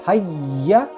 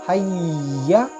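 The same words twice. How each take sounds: Both takes have the same delivery.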